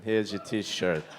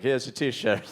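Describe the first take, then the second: First: Slow, low Queens accent; thick New York street vendor. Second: Quick Queens accent line; New York accent. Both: Shown as a demonstration. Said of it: "That's my New York accent".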